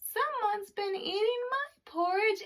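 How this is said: It is said in a tiny, small voice. "in his wee small voice he said"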